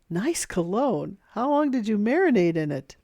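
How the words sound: The tone is smiling and happy, sounding joking. The remark comes across as a friendly joke. The speaker calls it right. "smile and use a happier voice to let the person know you're joking"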